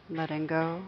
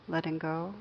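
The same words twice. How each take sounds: The two takes are said the same way.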